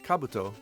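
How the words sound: It is said with a Japanese-style pronunciation. This is the original word meaning helmet. "the actual Japanese word... it's pronounced Kabuto"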